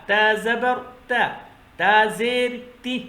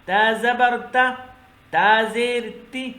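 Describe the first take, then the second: The two takes are said the same way.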